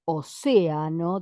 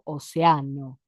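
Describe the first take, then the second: First: The stress is on the second syllable. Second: The stress is on the third syllable. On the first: "En lugar de decir océano" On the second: "Queda fuerte la letra A"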